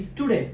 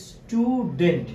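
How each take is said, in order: First: Said in the usual way. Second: স্টুডেন্ট slow, split স্টু, ডেন্ট; drawn-out স্টু, then ডেন্ট; syllable by syllable. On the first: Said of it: "স্টুডেন্ট দুইটা". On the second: Shown as a demonstration. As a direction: stretch স্টুডেন্ট into two separate beats. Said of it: "খেয়াল করে দেখো, স্টুডেন্ট দুইটা".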